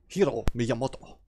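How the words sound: The name is said in a put-on Japanese accent. The speaker calls it wrong. "put on this really weird accent"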